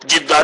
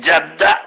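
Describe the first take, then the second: First: The first vowel is i. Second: The first vowel is a. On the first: The speaker calls it wrong. "ജിദ്ദ എന്നേ പറയുള്ളൂ" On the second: The speaker calls it right. "മാമ എന്നുള്ള അർത്ഥത്തിനുള്ള ജദ്ദ"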